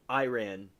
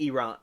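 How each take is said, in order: First: Iran said eye-RAN; variant pronunciation. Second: Iran said ee-RON; corrective pronunciation. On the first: Trying out the variant for chat, Iran as eye-RAN. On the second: Checking what chat means, Iran as ee-RON. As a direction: say Iran with "ee" first and "RON" last. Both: Shown as a demonstration. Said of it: "You mean Iran".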